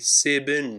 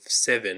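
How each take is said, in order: First: Seven is blended with an Arabic-sounding pronunciation. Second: Seven is said with a plain English pronunciation. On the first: "Someone with an accent might say seven" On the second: "instead of seven"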